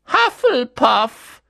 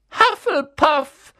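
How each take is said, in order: First: High, loud, slow hat voice; the hat proclaims the house; hat calls out. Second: High, loud, slow hat voice; the hat proclaims the house again; hat calls out. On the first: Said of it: "rief der Hut". (der Hut ruft laut das Haus aus) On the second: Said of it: "rief der Hut abermals". (der Hut ruft erneut laut das Haus aus) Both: A narrator's reading.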